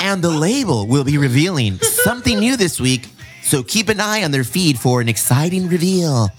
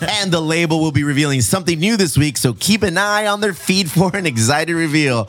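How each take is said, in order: First: It is read in a playful, teasing way. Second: It is read in a plain, straight way.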